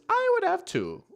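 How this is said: It is said in a put-on cartoon-villain voice.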